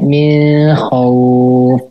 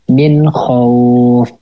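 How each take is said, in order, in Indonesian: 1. Bunyi n samar dan berdengung sebelum kh. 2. Bunyi n dibaca jelas sebelum kh. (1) "jadinya ikhfa ya" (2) "Jadinya dibacanya jelas"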